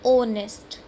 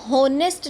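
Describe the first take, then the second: First: The word begins with a vowel sound. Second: The word begins with an h sound. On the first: The speaker calls it right. "हमारा sound आ रहा है ओ से" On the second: The speaker calls it wrong. "इसको हम होनेस्ट नहीं बोलते हैं"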